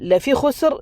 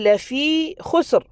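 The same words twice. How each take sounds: First: The vowel in lafee is cut short. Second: The vowel in lafee is held for two counts. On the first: The speaker calls it wrong. "ആ മദ്ദിൻ്റെ അക്ഷരം തന്നെ കളഞ്ഞു. അങ്ങനെ ഉണ്ടാകരുത്" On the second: The speaker calls it right. "അപ്പോൾ അവിടെയും നമ്മൾ രണ്ട് ഹറക്കത്തുകൾ നീട്ടണം"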